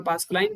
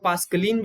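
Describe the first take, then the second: First: Said in the usual way. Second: पास्कलिन said with a short final "lin" instead of "line"; alternate pronunciation. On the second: Shown as a demonstration. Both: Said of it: "कभी कुछ लोग पास्कलिन भी बोलते हैं".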